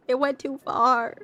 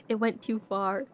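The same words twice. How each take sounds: First: Slow, louder, half-laughing lament; mock dramatic. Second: Said in the usual way. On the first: Real, not acted. Admitting to chat the joke went too far, mock dramatic. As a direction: stretch it out like a mock tragedy. Said twice, second drawn out.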